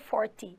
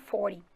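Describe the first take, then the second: First: It is said in a British accent. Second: It is said in an American accent.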